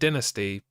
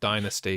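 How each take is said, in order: First: The first syllable sounds like 'din'. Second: The first syllable sounds like 'dine'. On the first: The speaker calls it wrong. "dynasty sounds like like somebody's making a lot of noise, like there's a massive din going on" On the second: The speaker calls it right. "I like dynasty because it's got dine in it"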